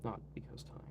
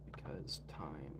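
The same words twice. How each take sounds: First: Soft whispered correction. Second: Low, quiet, slow deadpan aside; low deadpan mutter. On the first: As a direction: whisper it as a sly aside. Whispered self-correction of the joke. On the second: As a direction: drop it low like a dry joke. Joking excuse, then correcting himself. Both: Real, not acted.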